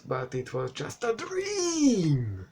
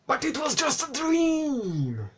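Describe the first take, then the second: First: Rising into a drawn-out, high "dream"; mock-dramatic reveal. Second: Very high squeaky hammed-up reveal; mock-dramatic squeal. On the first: Reviewer mocking the film's twist, melodramatic. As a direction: melodramatic twist, last word stretched out. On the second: Reviewer mocking the dream twist, squealed melodrama. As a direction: squeal it, stretching "dream" into a long falling wail. Repeats the mocked twist, exaggerated.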